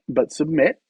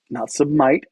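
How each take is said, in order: First: "submit" said with short i, rising; "submit" as sub-mit, short i; correct pronunciation. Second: "submit" said as sub-mite, long i; wrong pronunciation. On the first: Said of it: "not submit, but submit". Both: Shown as a demonstration.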